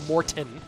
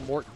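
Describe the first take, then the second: First: The T in the middle is hit hard. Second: The T in the middle is barely touched. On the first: The speaker calls it wrong. "I don't go Morton" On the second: The speaker calls it right. "I pronounce the T. I just like don't hit it"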